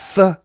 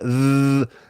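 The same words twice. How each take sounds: First: The th sound is made without voice. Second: The th sound is made with voice.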